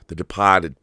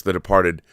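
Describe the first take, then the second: First: "The Departed" in a Boston accent, R dropped. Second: Said in the usual way. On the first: Shown as a demonstration. Repeats title in Boston accent.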